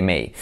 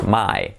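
First: Said in the usual way. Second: "My" with a wide ah-ee glide; Australian vowel. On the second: Shown as a demonstration. Teacher contrasting Australian with usual, "My" with ah-ee. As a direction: say "My" for May, Australian style. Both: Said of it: "en vez de may".

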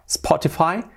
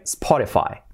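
First: "Spotify" with a full hard t, "spo-ti-fai"; the wrong "Spotify", t not softened. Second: "Spotify" with the t tapped, "spo-ri-fai"; soft-t Spotify. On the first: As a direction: say "Spotify" with a crisp t, rising. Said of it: "Y la T hacemos suave". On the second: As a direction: say "Spotify" softening t almost to r. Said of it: "la T hacemos suave". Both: Shown as a demonstration.

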